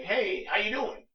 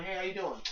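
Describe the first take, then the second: First: Louder, slow, stiff "Hey, how you doing?"; dull greeting. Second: Said in the usual way. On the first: Shown as a demonstration. "Hey, how you doing?" as a stiff opener to a woman online, said slow and loud. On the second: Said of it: "you come over like".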